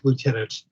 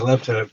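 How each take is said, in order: First: It is said the American way, as loo-tenant. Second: It is said the British way, as lef-tenant. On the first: "as we say in American English" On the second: "cross upon the say"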